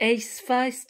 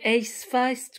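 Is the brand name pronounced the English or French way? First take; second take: English; English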